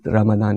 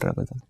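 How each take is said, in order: First: The middle consonant is a d-like sound. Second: The middle consonant is a z sound. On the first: This is how it is said in Saudi Arabia. "There they say it" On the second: This is how Indian Muslims traditionally say it. "we call it"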